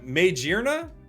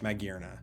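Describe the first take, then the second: First: The middle part does not sound like 'gear'. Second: The middle part sounds like the word 'gear'. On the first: The speaker calls it wrong. "is how I'm gonna pronounce this incorrectly" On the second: The speaker calls it right. "because it's got gear"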